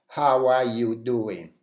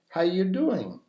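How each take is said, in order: First: The word are is clearly pronounced in full. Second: The word are is reduced almost to nothing. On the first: The speaker calls it wrong. "so I don't say" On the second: The speaker calls it right. "there is a weak form here"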